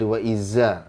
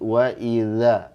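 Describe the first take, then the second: First: The consonant is a buzzing z sound. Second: The consonant is a soft th sound. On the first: The speaker calls it wrong. "Kadang menyerupai za tuh. Nah, itu salah" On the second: The speaker calls it right. "Harus lembut"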